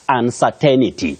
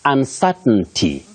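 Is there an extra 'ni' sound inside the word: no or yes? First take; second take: yes; no. First: An extra 'ni' sound is inserted mid-word. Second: No extra 'ni' sound is inserted mid-word. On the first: The speaker calls it wrong. "but not uncertainty" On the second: The speaker calls it right. "You say uncertainty"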